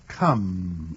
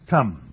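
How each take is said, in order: First: The word begins with a k sound. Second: The word begins with a t sound. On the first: The speaker calls it right. "say come as Papa does" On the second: The speaker calls it wrong. "you say tum"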